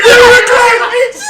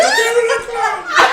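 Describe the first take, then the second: First: High, loud shrieking accusation; panicked scream. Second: High shriek broken by laughter; laughing mock scream. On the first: Retold or imitated. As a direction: shriek it out, pointing. Mother screaming, pointing at them. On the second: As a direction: scream it while cracking up. Repeat of mother's scream.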